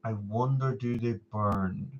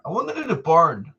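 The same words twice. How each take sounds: First: Quiet musing. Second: Said in the usual way. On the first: Real, not acted. Slow repeated musing.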